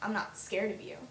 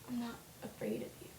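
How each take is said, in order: First: It is said in a playful, laughing tone. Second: It is said in a serious tone.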